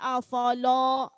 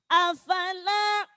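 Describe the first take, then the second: First: The sounds are heavy and thick. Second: The sounds are light and thin. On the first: The speaker calls it wrong. "jangan sampai afala" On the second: The speaker calls it right.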